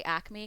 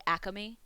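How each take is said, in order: First: Said in the usual way. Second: Acme stretched to three syllables, "Ack-a-me"; extra A pronunciation. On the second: Shown as a demonstration. Streamer showing the local lingo, Acme as "Ack-a-me". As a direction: slip an extra "a" into the middle of Acme. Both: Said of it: "we add an extra A to it".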